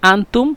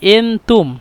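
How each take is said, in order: First: The word begins with an open 'a' vowel. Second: The word begins with an 'e' vowel. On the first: This is the standard form of the word. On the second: This is the Egyptian regional form of the word.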